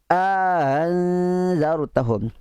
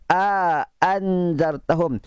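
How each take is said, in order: First: The second glottal stop is softened, eased toward a vowel. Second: Both glottal stops are pronounced fully and clearly. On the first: "Kalau bacaan tasil" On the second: "Ataupun itu bacaan tahqiq"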